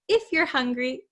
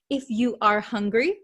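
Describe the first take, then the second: First: 'You are' is contracted into one short syllable. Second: 'You are' is said as two full words. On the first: "we like to make it nice and short" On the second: "Instead of saying, if you are hungry, it's a little bit long"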